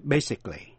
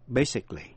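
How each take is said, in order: First: Basically said in three beats, BAY-sick-lee; basically, three syllables only. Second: Basically repeated, three beats, BAY-sick-lee; basically, three syllables, falling. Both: Shown as a demonstration. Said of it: "phát âm ba vần".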